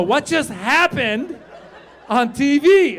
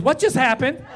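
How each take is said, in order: First: "what just happened" slow, high and loud; child insisting on "what just happened", imitated; insistent daughter. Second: Put-on higher-pitched child's question; inquisitive daughter. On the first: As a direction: press every word of "what just happened", loudly. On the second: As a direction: imitate a sharp little girl asking. Sharp daughter questions dad at once.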